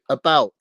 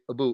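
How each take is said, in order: First: The vowel is said in a standard way. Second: The vowel is said with a Canadian sound. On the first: "Why can't Canadians say about?" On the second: "They have to say about"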